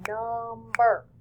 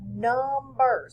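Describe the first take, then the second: First: "number" slow, split into num and ber; snapped-out syllables. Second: Said in the usual way. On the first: Shown as a demonstration. Teacher snapping out number for two syllables, drawn-out syllable by syllable. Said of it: "if I snap it out". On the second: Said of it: "So if I snap it out".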